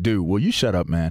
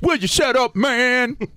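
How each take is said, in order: First: It is said seriously in a normal voice. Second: It is said in a put-on comic voice.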